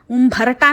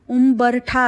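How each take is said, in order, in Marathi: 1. मधला व्यंजन महाप्राण bh आहे. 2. मधला व्यंजन साधा b आहे. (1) "ना की भ ठोसरा का फोसरा नाही" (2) "ते उंबरठा असतं ब बदकातला"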